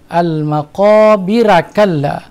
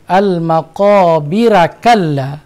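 No difference in how they are said.

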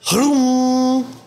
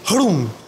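First: The word ends with a long sustained hum. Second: The word ends quickly without a sustained hum. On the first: The speaker calls it right. "You're supposed to carry the frequency at the end" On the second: The speaker calls it wrong. "that is not like me just saying hrum"

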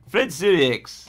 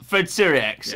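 First: It is said with a put-on French accent. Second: It is said in a plain, unaccented way.

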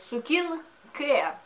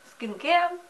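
First: The vowel after s is fully pronounced. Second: The vowel after s is dropped.

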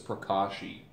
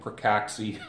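First: The middle consonant is an SH sound. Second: The middle consonant is a KS sound. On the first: The speaker calls it right. "it's pronounced like this" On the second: The speaker calls it wrong. "I originally started calling it Prakaxi"

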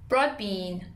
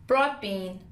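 Both takes have the same delivery.

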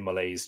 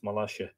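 First: The name is pronounced in an anglicized way. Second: The name is pronounced the Irish way. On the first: "I'm going to say Molaise just to keep it handy" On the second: "I presume in Irish it's pronounced Molaise"

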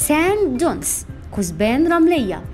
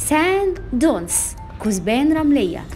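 No difference in how they are said.

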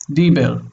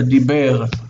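First: The stress is on the first syllable. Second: The stress is on the last syllable. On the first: The speaker calls it wrong. "if we put the accent here, we would say this is Dibir" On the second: The speaker calls it right. "The accent is here. It's on the last syllable"

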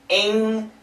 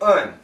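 First: The ending has a full ng sound. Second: The ending is a very short schwa plus n. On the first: "We can say ing" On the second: "kind of a schwa, very short"

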